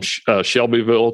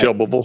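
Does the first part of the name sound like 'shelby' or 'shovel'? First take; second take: shelby; shovel. First: The name is said plainly with a clear 'Shelby'. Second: The name is mumbled so it sounds like 'shovel'.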